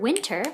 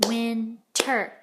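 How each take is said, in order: First: Said in the usual way. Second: WINTER slowly as win, pause, ter; split into syllables. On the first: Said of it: "In the word winter". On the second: Shown as a demonstration. Teacher showing two syllables, winter split apart slowly. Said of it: "there are two syllables".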